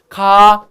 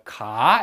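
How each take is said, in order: First: The syllable stays on a low pitch. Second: The pitch starts low, rises, and is longer. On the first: "낮게" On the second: "낮았다가 높아져야 되기 때문에 ... 더 오래 걸려요"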